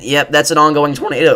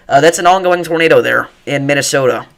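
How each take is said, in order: First: Excited words where the voice breaks on "ongoing"; real accidental crack in the voice while calling the tornado. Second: Said in the usual way. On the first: Real, not acted. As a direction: voice cracks mid-sentence, real. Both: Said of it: "Oh, that was a bad voice crack".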